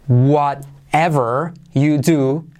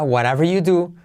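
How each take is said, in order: First: The words are said separately, each one distinct. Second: The words are run together quickly, dropping sounds.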